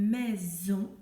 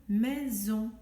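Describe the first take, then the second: The two takes are said the same way.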